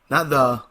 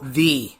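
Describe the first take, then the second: First: The word is said the ordinary way. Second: The word is said the special emphatic way. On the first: This is the usual way people say it. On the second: This is how the school says its name. "That's how they say it"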